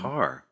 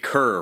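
First: The vowel sounds like the one in 'car'. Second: The vowel sounds like the one in 'cur'. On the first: The speaker calls it right. "But it's Carr" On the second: The speaker calls it wrong. "we've been saying Kerr for the longest time"

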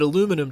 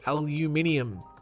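First: It is said the American way. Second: It is said the Australian way. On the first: The speaker calls it right. "aluminum just sounds better" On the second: The speaker calls it wrong. "We here in Australia, we're supposed to call it aluminium"

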